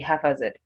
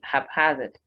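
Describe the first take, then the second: First: The stress is on the first syllable. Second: The stress is on the second syllable. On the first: The speaker calls it wrong. "People tend to think you're meant to say haphazard, but no" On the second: The speaker calls it right. "stressed on its second syllable"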